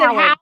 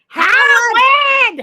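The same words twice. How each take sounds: First: It is said in a normal speaking voice. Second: It is screeched in Howard's mother's voice.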